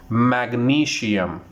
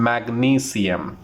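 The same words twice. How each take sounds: First: Magnesium with a sh sound, mag-NEE-shee-um; teacher shows the common mistake on magnesium; wrong pronunciation. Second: Magnesium slowly with a clear s, mag-NEE-see-um; teacher models magnesium slowly and carefully; correct pronunciation. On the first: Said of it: "Again, it's incorrect". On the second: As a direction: draw out magnesium with an s, slow. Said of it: "The correct pronunciation". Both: Shown as a demonstration.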